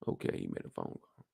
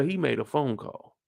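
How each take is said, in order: First: Hushed whisper, full of suspicion; conspiratorial whispered repeat. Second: Said in the usual way. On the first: Shown as a demonstration. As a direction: breathe it out like a secret. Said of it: "Who'd he make that phone call to?".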